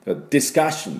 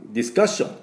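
First: ディスカッション with no vowel after ス and a stressed カ; correct English discussion. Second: ディスカッション with a vowel after ス, katakana style; ディスカッション pronounced like Japanese katakana; Japanese-style discussion. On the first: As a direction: say ディスカッション with カ hit hard, ス clipped. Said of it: "綺麗なディスカッションの音になります". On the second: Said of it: "今の日本の発音ですが". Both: Shown as a demonstration.

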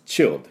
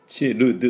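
First: チルド as one pushed syllable "chil'd"; English チルド with L and D together. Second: チルド in three beats, chi-ru-du; wrong syllable-by-syllable チルド; katakana mistake. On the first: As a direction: go to L and push straight out on チルド. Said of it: "そのまま押し出します". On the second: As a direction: voice every vowel in チルド. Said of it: "チルドじゃありません". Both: Shown as a demonstration.

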